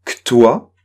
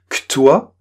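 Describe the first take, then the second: No difference in how they are said.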